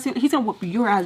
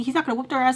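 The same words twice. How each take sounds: First: Loud correction landing on "your"; stress on YOUR. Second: Raised, loud voice with weight on "their"; stress on THEIR. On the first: Telling herself she's the one in trouble, stress on "your". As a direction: punch "your" to turn the threat round. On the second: Telling herself who won't get beaten, stress on "their". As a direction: set "their" up for a contrast. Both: Shown as a demonstration. Contrast their versus your.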